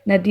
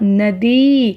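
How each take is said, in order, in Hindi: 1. अंतिम स्वर छोटा है। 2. अंतिम स्वर लंबा है। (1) "नदी नहीं होता" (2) "बोलते हुए ही बड़ी ई का उच्चारण करेंगे द को"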